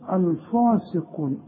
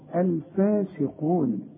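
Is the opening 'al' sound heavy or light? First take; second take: heavy; light. First: The opening lam and alif sound heavy and thick. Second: The opening lam and alif sound light and thin. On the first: The speaker calls it wrong. "ما تقولش الفاسقون" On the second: The speaker calls it right. "اللام دي دائما مرققة، الف مرققة"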